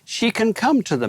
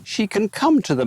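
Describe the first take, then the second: First: High, rising like a question; "come" stressed, voice rising at the end; rising question tune. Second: High voice, rising at the end; "come" stressed with a rising finish; rising question tune. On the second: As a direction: ask it, lifting the close. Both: Shown as a demonstration.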